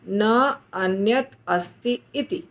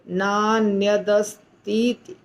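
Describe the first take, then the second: First: The four words are said apart. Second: The four words are merged into one. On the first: The speaker calls it right. "चारों के शब्दों को विच्छेद करके बोलना, अलग अलग बोलना है" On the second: The speaker calls it wrong. "हमें ऐसे नहीं बोलना है।"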